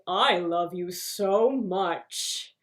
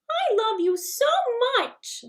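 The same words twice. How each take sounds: First: It is said very low like Gaston. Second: It is said very high like Mickey Mouse.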